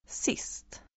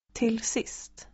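First: A soft unvoiced whisper of "Sist"; whispered word. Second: Said in the usual way. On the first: Shown as a demonstration. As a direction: breathe "Sist" with no voice at all. Teacher reading word list aloud.

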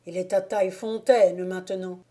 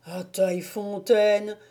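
First: Said in the usual way. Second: Mildly dumbfounded repetition; astonished echo. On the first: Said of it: "fit Mildet avec un mouvement de bras". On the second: A narrator's reading. Moquet learning the wolf got away, astonished. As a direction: echo it in disbelief. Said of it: "fit Moquet tout ébahi".

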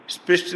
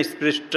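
First: स्पृष्ट cut off on the ṭ, sprisht; higher-pitched स्पृष्ट with no vowel after the last consonant; final vowel dropped. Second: स्पृष्ट ending in a short अ, sprish-ṭa; final vowel sounded. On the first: Teacher shows students the wrong way, स्पृष्ट without final अ. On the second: Teacher corrects students, स्पृष्ट with final अ sounded. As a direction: voice the अ after the last ट in स्पृष्ट. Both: Shown as a demonstration. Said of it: "स्पृष्ट नहीं".

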